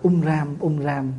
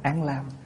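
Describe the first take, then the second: First: It begins with 'um' and the second word has 'r'. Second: It begins with 'an' and the second word has 'l'. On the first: This is the original form of the syllables. "chữ âm ta đầu là" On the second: This is the reading used now. "mình đọc bây giờ là"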